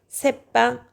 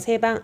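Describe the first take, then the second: First: The second syllable starts with a tense b. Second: The second syllable starts with a plain b. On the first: The speaker calls it right. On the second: The speaker calls it wrong.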